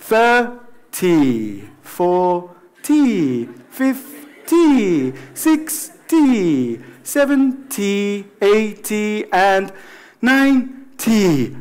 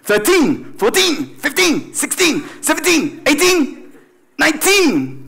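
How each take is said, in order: First: Slow, drawn-out, relaxed count. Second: Put-on punchy teens climbing higher; aggressive, short. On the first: Teacher drilling the bigger numbers, relaxed and slow. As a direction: let each "-ty" stretch out lazily. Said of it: "relajaros, por favor". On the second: Teacher drilling the smaller numbers, aggressive and short. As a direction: snap each "-teen" out short and aggressively. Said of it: "Estos son agresivos". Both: Shown as a demonstration.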